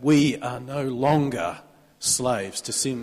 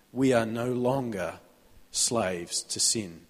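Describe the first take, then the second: First: Slow, each word of We are no longer slaves to sin weighed; emphasized. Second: Said in the usual way. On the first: Shown as a demonstration. Preacher stressing the verse to the congregation, slow and weighty. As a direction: land every word of the verse deliberately. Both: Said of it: "I want to emphasize that".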